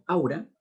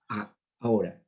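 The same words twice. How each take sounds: First: Said in the usual way. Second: "ahora" stretched as "a-ora", hiatus kept; "ahora" pulled apart into two vowels; split vowels in "ahora". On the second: Shown as a demonstration. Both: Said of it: "Indio dice endio".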